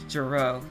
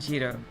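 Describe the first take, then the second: First: The name is pronounced the usual English way. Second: The name is pronounced a different, non-English way. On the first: "it's said in English Giro" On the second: "rather than Giro"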